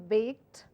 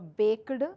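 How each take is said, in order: First: The ending is a plain t sound. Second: The ending is not a plain t sound. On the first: The speaker calls it right. "Bake would become baked" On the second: The speaker calls it wrong. "it is not uh, baked, all mispronounced words"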